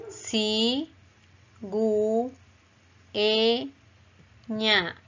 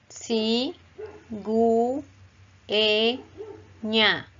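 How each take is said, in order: Both takes have the same delivery.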